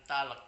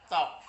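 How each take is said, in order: First: "talek" with the L sounded; wrongly voiced L. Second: "talk" said as "tok"; silent L in talk. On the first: Teacher warns pupils how not to read talk, L sounded in "talek". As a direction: say "talek" in two syllables, L pronounced. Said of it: "Bukan talek". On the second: Teacher shows pupils which letter is not read, silent L in "talk". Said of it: "ada huruf yang tidak perlu dibaca". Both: Shown as a demonstration.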